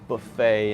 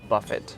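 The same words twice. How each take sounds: First: The final T is silent. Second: The final T is pronounced. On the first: The speaker calls it right. "Buffet instead of buffet, because it's comes from French" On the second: The speaker calls it wrong. "instead of"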